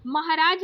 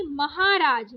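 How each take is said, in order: First: महाराज with a short ha; wrong short middle vowel. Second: महाराज with a long haa; correct long middle vowel. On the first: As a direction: say महाराज as "muh-huh-raaj". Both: Shown as a demonstration. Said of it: "महाराज नहीं".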